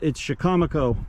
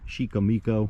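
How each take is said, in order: First: The name is said with its standard vowels. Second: The name is said with altered middle vowels. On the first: The speaker calls it right. "But it's uh" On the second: The speaker calls it wrong. "It's kind of comical to hear that word mispronounced"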